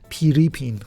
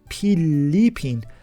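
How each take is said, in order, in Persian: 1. حرف میانی یک صدای R است. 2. حرف میانی یک صدای واضح L است.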